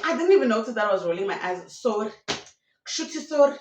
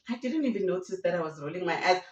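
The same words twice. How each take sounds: First: Rushed excuse. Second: Said in the usual way. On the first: Retold or imitated. Repeated, heightened take of the excuse.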